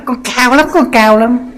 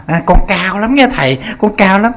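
First: Much higher, sing-song bragging imitation; mock her showing off, pitch way up; exaggerated vain lady boasting, high voice; boastful lady, higher. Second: A hint of a vain woman bragging, higher; boastful lady. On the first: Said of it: "đi tới đó". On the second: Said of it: "bà cứ nói bà cao".

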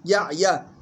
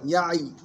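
First: يعيا as "ya'-ya", final a sounded; joined form. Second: يعي with vowelless ayn and ya; stopping form. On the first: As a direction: sound the last open vowel of يعيا. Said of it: "ينتبه". (يعيا بفتح الياء وصلًا) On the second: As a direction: stop on the final ya of يعي. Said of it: "لها وقفا". (يعي بإسكان العين والياء وقفًا) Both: Shown as a demonstration.

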